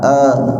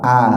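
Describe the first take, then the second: First: The vowel is said with the mouth held back. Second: The vowel is said with the mouth wide open. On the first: The speaker calls it wrong. "Kadang-kadang membukanya agak ditahan-tahan" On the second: The speaker calls it right.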